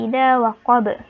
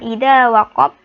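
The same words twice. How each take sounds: First: The final b ends with a strong bounce. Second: The final b is muted, without a bounce. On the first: The speaker calls it right. "ada be-nya ya" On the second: The speaker calls it wrong.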